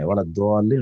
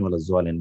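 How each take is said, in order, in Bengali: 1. মূল শব্দটি D-এর মতো ধ্বনি দিয়ে শুরু হয়। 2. মূল শব্দটি Z-এর মতো ধ্বনি দিয়ে শুরু হয়। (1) "দোয়াদ উচ্চারণটা আমরা চাই কোরআনের ক্ষেত্রে" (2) "ওয়ালা জোয়ালিন পড়লে কোনো ভুল নাই"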